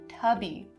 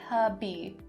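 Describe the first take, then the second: First: The word to is reduced to ta. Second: The word to is reduced to ta.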